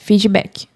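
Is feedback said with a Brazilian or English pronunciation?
Brazilian. It is said with Brazilian Portuguese pronunciation. "Quando você estiver falando português, ok, pode falar feedback"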